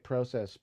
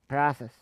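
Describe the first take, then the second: First: It is said with a Canadian pronunciation. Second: It is said with an American pronunciation. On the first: "if I was Canadian, I'd say process" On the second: "over here in the States, we say process"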